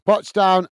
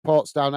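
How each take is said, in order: First: "Potsdown" said as Pots-down, no r after the o; "Potsdown" with a short "pots", unsure of the name; "Potsdown" read out as Pots-down, dropping the r; mispronounced place name. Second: "Portsdown" with a clear r, Ports-down; "Portsdown" said right, port then down; "Portsdown" with a full r in port; corrected pronunciation. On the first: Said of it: "There you go. That's it. Portsdown". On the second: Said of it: "That's it". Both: Real, not acted.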